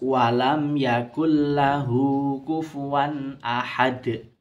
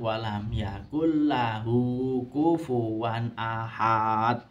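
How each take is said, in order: First: The final syllable is cut short. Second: The final syllable is drawn out long. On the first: The speaker calls it right. "Harusnya seperti itu" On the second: The speaker calls it wrong. "Tapi karena mengikuti iramanya biasanya"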